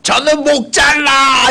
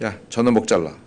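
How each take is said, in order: First: It is shouted forcefully. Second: It is said calmly and lightly.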